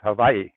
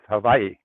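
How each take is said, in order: First: The middle consonant is a V sound. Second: The same.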